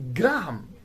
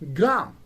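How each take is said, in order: First: The H is sounded, giving two syllables. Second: The H is silent, giving one syllable. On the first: The speaker calls it wrong. "It is not Graham" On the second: The speaker calls it right. "it is pronounced as gram"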